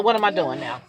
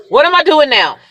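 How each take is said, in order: First: Said in the usual way. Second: "What am I doing now?" higher and louder; emphatic repeat. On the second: Real, not acted. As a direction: punch out "What am I doing now?" with a raised pitch.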